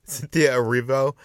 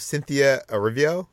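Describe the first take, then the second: First: Erivo said as "eh-REE-voh"; corrected Erivo. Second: Erivo said as "eh-RIV-ee-oh"; mispronounced Erivo. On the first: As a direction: say Erivo in three syllables, ending in a clean "voh". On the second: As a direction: slip an extra "ee" before the final "oh" in Erivo. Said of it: "Is that how you". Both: Real, not acted.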